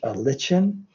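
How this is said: It is said in a British way.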